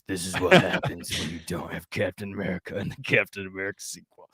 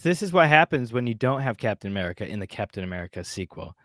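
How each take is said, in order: First: It is read in a put-on character voice. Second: It is read in the speaker's ordinary voice. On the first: "This is my felon, my felon voice" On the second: "I gotta change my voice"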